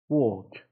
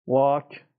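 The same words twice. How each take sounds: First: ووک with a long rounded O; long O version. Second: واک with a long open A; long A version. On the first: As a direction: draw out the O in ووک. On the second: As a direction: draw out the open vowel in واک. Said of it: "آی کشیده خیلی جا تبدیل". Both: Shown as a demonstration.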